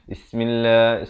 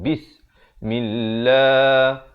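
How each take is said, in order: First: The b sound at the start is weak. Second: The b sound at the start is clear. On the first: The speaker calls it wrong. "ba itu tidak dijelaskan. Dia bunyi Bismillah, Bismillah. Salah" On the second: The speaker calls it right. "Yang mestilah bis. Bis, ba bari kasrah bertemu sin"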